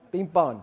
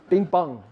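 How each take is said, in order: Both takes have the same delivery.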